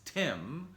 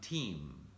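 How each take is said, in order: First: The vowel is short and lax. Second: The vowel is long and tense. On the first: The speaker calls it right. "my name is Tim" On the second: The speaker calls it wrong. "in Russian it can become Team"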